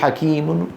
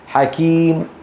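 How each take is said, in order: First: The word ends with a final n sound. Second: The word ends with a faint, lowered vowel. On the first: The speaker calls it wrong. "ما منقول حكيم، ما بنجيب تنوين" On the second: The speaker calls it right. "التنوين يحذف ونخفض صوتنا بالضمة"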